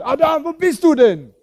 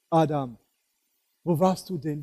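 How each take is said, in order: First: It sounds angry and scolding. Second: It sounds sad and loving.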